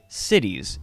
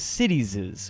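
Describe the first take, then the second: First: The word ends with a single S sound. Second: The word ends with an extra S syllable. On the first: The speaker calls it right. "I would just say cities" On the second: The speaker calls it wrong. "with two S's, as citieses, which is technically incorrect"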